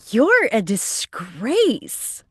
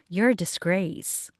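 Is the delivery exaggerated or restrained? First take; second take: exaggerated; restrained. First: It is delivered in an exaggerated, over-the-top way. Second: It is delivered in a restrained, less dramatic way. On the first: "just that kind of like over the top" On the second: "as opposed to more like"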